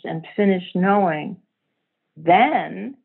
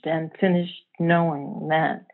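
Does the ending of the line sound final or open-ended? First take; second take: open-ended; final. First: The line stays open, leading on past the end. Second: The line closes off, sounding final at the end. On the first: Something else is about to happen. "whoa, what happened then? Something else" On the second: Something has come to an end. "it feels like an end to something"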